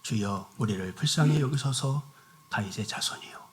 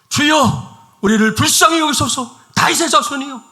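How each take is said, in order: First: It is said quietly, without urgency. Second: It is shouted loudly and urgently.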